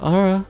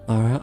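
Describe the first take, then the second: First: It is said with a higher pitch. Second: It is said with a lower pitch.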